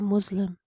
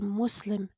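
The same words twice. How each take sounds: First: The consonant before the l is a buzzing z. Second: The consonant before the l is a sharp s. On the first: The speaker calls it wrong. "We don't say it as a z" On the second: The speaker calls it right. "we use the seen, the s"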